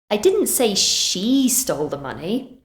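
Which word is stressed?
she. The stress falls on the word she. Someone else stole the money. "Maybe I said someone else did"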